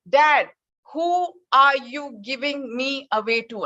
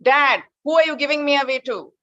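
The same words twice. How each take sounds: First: Son's third, slow, pleading demand; insistent plea. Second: Louder, higher insistent repeat; pressing question again. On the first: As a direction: stretch it out, last try for an answer. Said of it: "Once again". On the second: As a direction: push harder, he's being ignored. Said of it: "he refused to look back". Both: Retold or imitated.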